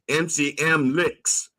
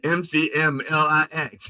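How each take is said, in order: First: The last letters are read as one word. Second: Every letter is spelled out one by one. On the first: "when A I says it, it goes M C M licks" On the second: "They don't say M C M L I X"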